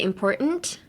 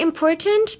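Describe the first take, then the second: First: The T in the middle is left silent. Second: The T in the middle is clearly pronounced. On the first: "silence the T and say important" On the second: "You can say important"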